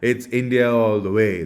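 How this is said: It is said in a pained, reluctant way. The one saying it hated having to admit it. "That's the way he was saying it"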